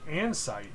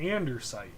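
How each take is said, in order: First: The word is said without an R sound. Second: The word is said with an R sound. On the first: The speaker calls it right. "there is no R in there" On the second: The speaker calls it wrong. "I thought it was E R, but I was wrong"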